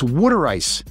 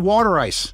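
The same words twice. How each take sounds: First: The words are said with a Philadelphia accent. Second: The words are said with a general American accent. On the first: The speaker calls it right. "it's water ice" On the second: The speaker calls it wrong. "It's not water ice"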